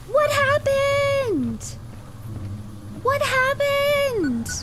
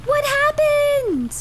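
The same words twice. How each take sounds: First: Stretched falsetto daze. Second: High, slow, drawn-out falsetto, louder; stretched falsetto daze. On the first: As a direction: stretch it out in a silly high voice. Repeats the dazed question. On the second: Dazed after lighthouse goes out. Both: Pretend.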